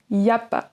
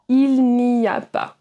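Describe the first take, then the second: First: The words are shortened and mumbled together. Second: Every word is said fully and separately.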